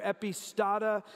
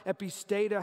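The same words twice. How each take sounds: First: "epistata" with an AH in the third syllable; alternate pronunciation. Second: "epistata" with an AY in the third syllable; alternate pronunciation. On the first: Preacher trying a Greek word, "epistata" with STAH. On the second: Preacher trying a Greek word, "epistata" with STAY. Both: Shown as a demonstration. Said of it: "how do I say it right?".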